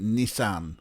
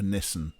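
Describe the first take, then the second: First: It is said with an American pronunciation. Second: It is said with a British pronunciation. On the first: This is how Americans say it. "you would drive a Nissan" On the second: This is how the speaker's own country says it. "whereas we'd drive a Nissan"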